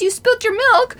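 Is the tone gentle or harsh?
harsh. It is said in an angry, harsh tone.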